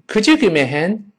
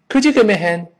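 First: The sentence is said at a normal pace. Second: The sentence is said at a faster pace.

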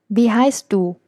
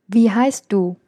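No difference in how they are said.

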